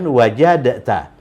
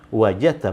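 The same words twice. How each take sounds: First: The d is heard separately before the t. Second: The d merges fully into the following t. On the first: The speaker calls it wrong. "bukan wajadta" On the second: The speaker calls it right. "wajadta bukan wajadta"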